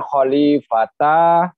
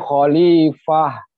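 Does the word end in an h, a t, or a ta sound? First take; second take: ta; h. First: The word ends with a full ta syllable. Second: The word ends with a soft h sound. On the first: The speaker calls it wrong. "bukan khalifata" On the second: The speaker calls it right. "tapi khalifah, fah menjadi he"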